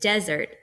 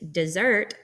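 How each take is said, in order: First: The stress is on the first syllable. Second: The stress is on the second syllable. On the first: "which is trochaic" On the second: "which is iambic"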